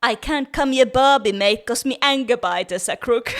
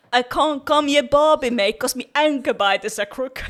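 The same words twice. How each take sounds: First: Broad mock Australian accent again, louder; hammed-up textbook Australian accent on request. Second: Broad mock Australian accent, louder; hammed-up textbook Australian accent. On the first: Shown as a demonstration. Co-host asks for it again, Australian accent. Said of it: "One more time, please". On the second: Friend shows off the Australian textbook line in Australian accent. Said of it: "different accents".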